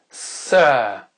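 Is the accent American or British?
British. It is said in a British accent. "l'accent britannique d'abord"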